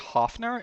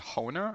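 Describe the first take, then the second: First: The name has an f sound in the middle. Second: The name has no f sound in the middle. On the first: The speaker calls it wrong. "I mispronounced one of the scholars' names" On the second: The speaker calls it right. "It's supposed to be Honer"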